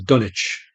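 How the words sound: Dunwich is said the British way.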